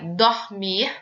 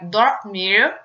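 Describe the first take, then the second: First: The final R sounds like a Spanish J. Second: The final R is an English-style R. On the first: "temos esse J de espanhol" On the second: "o R de, eh, do inglês, que seria o R caipira"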